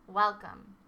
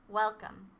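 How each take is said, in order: No difference in how they are said.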